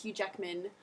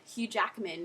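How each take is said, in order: First: "Hugh Jackman" said as "Hugh Jeckman"; Australian A. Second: "Hugh Jackman" with an open A in Jack; American A. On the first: Tutor showing the Australian way to say the name, eh vowel. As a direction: shift the A in "Jackman" to eh. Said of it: "It's Hugh Jackman". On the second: Tutor showing how not to say the name, open A. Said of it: "You don't say". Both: Shown as a demonstration.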